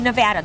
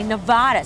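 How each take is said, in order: First: The middle vowel sounds like the 'a' in cat. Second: The middle vowel does not sound like cat's 'a'. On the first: This is how people from the state say it. "some of the people who live here say Nevada, just like you said" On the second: This is how people from outside the state say it. "people outside the state say Nevada"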